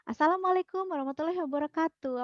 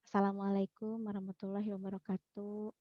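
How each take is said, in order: First: The greeting is said lively, with high energy. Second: The greeting is said flatly, with low energy. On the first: The audience becomes interested in the presentation. The speaker calls it right. "yang kedua nih ya, versi yang kedua" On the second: The audience loses interest and feels bored. The speaker calls it wrong. "kalau yang versi pertama tadi, si audiens akan tertarik nggak dengan presentasi kita? Enggak ya?"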